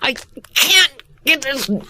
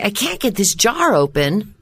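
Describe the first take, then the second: First: It is said strained, as if twisting hard. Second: It is said plainly, without physical effort.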